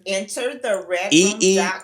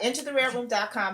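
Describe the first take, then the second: First: It is said slowly and deliberately. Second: It is said at a quick, normal pace.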